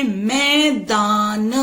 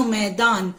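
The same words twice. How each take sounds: First: "मैदान" slowly split as मै-दा-न; teacher's drawn-out syllables in "मैदान"; sounding out. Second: Said in the usual way. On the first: Shown as a demonstration. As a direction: stretch each syllable of "मैदान". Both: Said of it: "अगर हम बोलते हैं".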